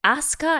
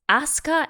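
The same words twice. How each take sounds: First: The su sound is clipped, almost silent. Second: The same.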